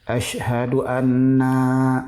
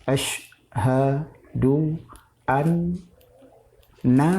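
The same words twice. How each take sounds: First: The final vowel of anna is drawn out long. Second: The final vowel of anna is short. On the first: The speaker calls it wrong. "Jangan ... salah" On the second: The speaker calls it right. "jangan panjang"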